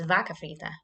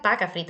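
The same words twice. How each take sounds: First: "vaca frita" starting on a clear v; corrected v sound. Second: "vaca frita" with a b for the v; wrong b sound. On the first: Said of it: "it's vaca frita". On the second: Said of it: "It's not vaca frita". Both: Shown as a demonstration.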